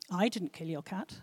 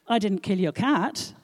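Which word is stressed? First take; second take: I; cat. First: The stress falls on 'I'. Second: The stress falls on 'cat'. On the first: "Now let's emphasize each word in turn" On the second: "Your gerbil, on the other hand, snuffed it, I'm afraid"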